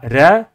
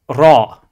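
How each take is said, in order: First: The letter is said light, without emphasis. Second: The letter is said heavy, with emphasis. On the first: The speaker calls it wrong. "Ce n'est pas ra" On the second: The speaker calls it right. "mais ra"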